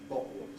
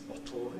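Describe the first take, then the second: First: A glottal stop and a vowel-like final L. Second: A released T running into a dark L. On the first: "the whole thing doesn't involve the tongue tip at all" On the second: "the lateral release bottle into a dark L that we have in standard received pronunciation"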